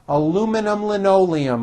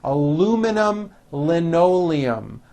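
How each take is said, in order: First: The phrase is said at a faster pace. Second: The phrase is said at a slower pace.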